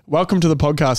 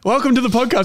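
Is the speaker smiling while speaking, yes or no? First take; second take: no; yes. First: It is said without a smile, sounding flat. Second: It is said while smiling, sounding brighter.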